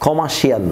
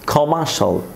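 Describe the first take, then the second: First: The ending is said as 'shee-al'. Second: The ending is said as 'shal'. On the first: The speaker calls it wrong. "ক্ষমা শিয়াল না" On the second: The speaker calls it right. "সমস্ত শিয়ালকে আমরা শলে পরিণত করব"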